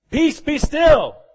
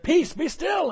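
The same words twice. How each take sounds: First: High, loud and slow, a command to the storm; commanding rebuke. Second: Calm rebuke. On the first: Preacher voicing Jesus commanding the storm, slow and loud. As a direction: speak each word slowly and with full authority. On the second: Preacher voicing Jesus rebuking the wind, high and calm. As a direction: raise the pitch and let the words ring out. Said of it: "rebuked the wind, said". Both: Acted.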